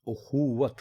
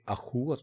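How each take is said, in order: First: The word begins with a 'u' vowel. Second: The word begins with an 'a' vowel. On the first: The speaker calls it right. "बल्कि ये उखुवत है। यानी आप इसको अलिफ के ऊपर पेश" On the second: The speaker calls it wrong. "ये अखुवत नहीं है ... लोग इसको अखुवत बोलते हैं, यानी वो अलिफ के ऊपर ज़बर डालकर"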